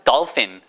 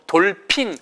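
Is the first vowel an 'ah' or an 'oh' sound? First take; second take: ah; oh. First: The first vowel is an open 'ah' sound. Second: The first vowel is a rounded 'oh' sound. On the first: The speaker calls it right. "그냥 dolphin 하시면 돼요" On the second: The speaker calls it wrong. "적어도 돌핀 하시면 안 돼요"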